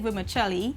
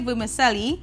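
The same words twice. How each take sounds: First: It uses the Italian-style pronunciation. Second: It uses the local Trinidadian pronunciation. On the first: This follows the word's Italian origin. The speaker calls it right. "he like to say vermicelli" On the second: This is how people in Trinidad say it. The speaker calls it wrong. "I like to say vermicelli"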